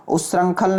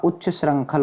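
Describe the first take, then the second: First: उच्छृंखल said "us-rankhal", no ch; wrong pronunciation. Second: उच्च श्रृंखल said "uch-cha srankhal"; correct version. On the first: Teacher shows the error, उच्छृंखल as high "us-rankhal". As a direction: drop the ch from उच्छृंखल. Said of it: "उच्छृंखल नहीं होता". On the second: Teacher corrects students, उच्च श्रृंखल as "uch-cha srankhal". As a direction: sound ch before the second part of उच्च श्रृंखल. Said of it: "क्या होता?". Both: Shown as a demonstration.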